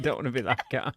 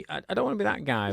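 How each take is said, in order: First: Said in the usual way. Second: Quick and higher-pitched; catchphrase. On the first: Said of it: "when I start saying". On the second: Shown as a demonstration. Teasing cohost, launching his catchphrase quickly, higher. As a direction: rattle it off as his pet phrase. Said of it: "why do you laugh when I start saying".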